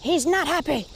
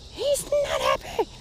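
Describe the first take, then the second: First: Said in the usual way. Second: Squeaky high voice for the fish, slowed; mock high voice. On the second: Second take in put-on high voice.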